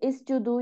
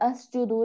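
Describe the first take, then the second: First: The word begins with an i vowel. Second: The word begins with an a vowel. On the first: "नहीं पढ़ेंगे" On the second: "नहीं पढ़ेंगे"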